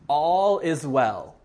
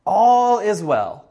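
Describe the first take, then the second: First: Said in the usual way. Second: Slow, loud, higher cry of all is well; cried out. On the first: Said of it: "the first thing that he says is". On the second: Acted. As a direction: call it out slowly and loud to the king. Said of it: "Ahimaaz cried out to the king".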